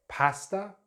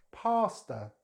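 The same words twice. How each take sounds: First: "Pasta" with short a as in cat; British "Pasta", PASS-tuh; British pronunciation. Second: "pasta" with open ah; American "pasta", PAH-stuh; American pronunciation. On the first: Teacher contrasts accents, "Pasta" with short front a. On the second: Teacher contrasts accents, "pasta" with open ah vowel. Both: Shown as a demonstration. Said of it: "British English or American English".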